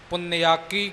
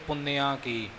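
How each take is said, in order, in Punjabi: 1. ਇਹ ਇੱਕ ਸ਼ਬਦ ਵਜੋਂ ਜੋੜ ਕੇ ਬੋਲਿਆ ਜਾਂਦਾ ਹੈ। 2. ਇਹ ਦੋ ਸ਼ਬਦਾਂ ਵਿੱਚ ਵੰਡ ਕੇ ਬੋਲਿਆ ਜਾਂਦਾ ਹੈ। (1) "ਇਕੱਠਾ ਪਾਠ ਕਰਨਾ ਜੀ" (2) "ਪੁੰਨਿਆ ਅਤੇ ਕੀ ਨੂੰ ਵੱਖਰਾ ਵੱਖਰਾ ਕਰ ਦਿੰਦੇ ਨੇ"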